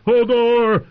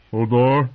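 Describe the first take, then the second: First: High, very loud roar. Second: Higher, louder anxious blurt; frightened. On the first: Hodor terrified by a thunderclap, roaring. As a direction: roar the name full out. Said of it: "he roared". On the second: Hodor hearing of armed men, frightened. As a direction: say the name in fright. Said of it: "Hodor sounded frightened". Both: A narrator's reading.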